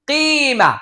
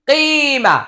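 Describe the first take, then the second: The two takes are said the same way.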